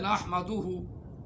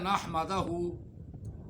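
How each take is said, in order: First: The vowel before the final syllable is 'u'. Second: The vowel before the final syllable is 'a'. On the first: The speaker calls it right. "लफ्ज़ है" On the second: The speaker calls it wrong. "तू पढ़ता है"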